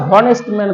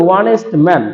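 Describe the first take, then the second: First: "honest man" said with a clear h, like hon-est; wrong pronunciation. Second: "honest man" with a silent h, starting on the vowel, on-est; correct pronunciation. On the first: Teacher showing students the wrong way, "honest man" with an h. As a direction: sound the h in "honest man" as a Bengali হ. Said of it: "এখানে কিন্তু আমরা উচ্চারণটা honest man করি না". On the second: Teacher showing students the right way, "honest man" slow with no h. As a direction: drop the h and say "honest man" slowly and carefully. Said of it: "এখানে আমরা করি honest man".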